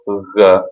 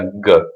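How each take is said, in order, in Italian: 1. È il suono G duro siciliano. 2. È il suono G duro italiano. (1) "in siciliano G" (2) "in italiano si pronuncia G"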